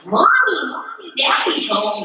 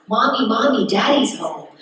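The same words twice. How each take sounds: First: High-pitched mock child's bad American accent; terrible American accent. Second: Lightly voiced little kid reciting a line; child actor's first line. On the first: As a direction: imitate your kid self badly faking American, pitched way up. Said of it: "It's like a terrible accent". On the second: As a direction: quote the kiddie line in a mild singsong. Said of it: "first line I had to do was".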